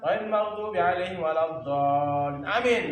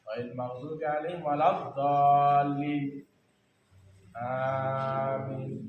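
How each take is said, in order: First: Amin follows straight on with no pause. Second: A short pause comes before amin. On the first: The speaker calls it wrong. "Amin langsung jangan" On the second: The speaker calls it right. "Ya sunahnya jeda"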